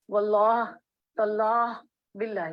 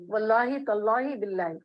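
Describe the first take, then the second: First: واللہ، تاللہ، باللہ each alone, with a pause after it; oaths one by one. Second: واللہ تاللہ باللہ run together, each ending in "-hi"; oaths with endings. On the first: Teacher showing students the three oath forms, spoken one by one. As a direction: separate واللہ, تاللہ and باللہ, endings left unvowelled. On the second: Teacher showing students how oaths are sworn, linked with "-i" endings. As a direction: link them as wallahi, tallahi, billahi. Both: Shown as a demonstration. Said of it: "قسم کس طرح کھائی جاتی؟".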